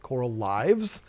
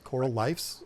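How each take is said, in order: First: The last word ends with a v sound. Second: The last word ends with an f sound. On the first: The speaker calls it wrong. "I'm not going to pronounce it Coral Lives because I don't think that would be the right way" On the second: The speaker calls it right. "and it's Coral Lifes"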